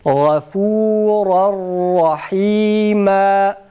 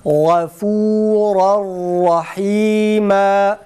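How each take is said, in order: The two takes are said the same way.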